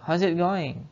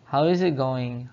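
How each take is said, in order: First: The word 'is' is contracted and linked. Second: The word 'is' is said fully and separately. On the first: "saya bacanya how's it going? ... Diseret ya" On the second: "kepanjangan dari how is it going"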